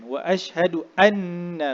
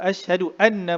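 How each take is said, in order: First: The doubled n is held with a nasal hum. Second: The doubled n is short without a nasal hum. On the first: The speaker calls it right. "pada nun bila tasydid dia mesti di wajib kita dengungkan" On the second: The speaker calls it wrong. "jangan jangan kita sebut"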